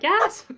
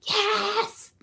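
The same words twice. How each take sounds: First: The word is shouted loudly. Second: The word is a forceful whisper. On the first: "I just yell it" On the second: "I yell yell whisper"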